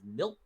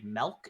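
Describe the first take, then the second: First: The vowel sounds like a short I. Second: The vowel sounds like a short E. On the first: The speaker calls it right. "milk with an I" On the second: The speaker calls it wrong. "I say it like with an E"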